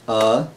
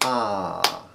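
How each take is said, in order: First: The vowel is short, held for one beat. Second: The vowel is long, held for two beats. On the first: "a short vowel will have like one beat" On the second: "A long vowel has two beats"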